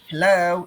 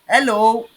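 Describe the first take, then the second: First: Hello is said with an American accent. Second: Hello is said with a local West African accent. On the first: The speaker calls it wrong. "like an American" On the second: The speaker calls it right.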